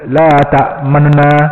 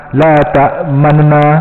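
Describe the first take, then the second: Both takes have the same delivery.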